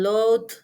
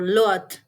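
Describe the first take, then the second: First: The word ends with a d sound. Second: The word ends with a t sound. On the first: "substitute it with the or even t" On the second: "or even t"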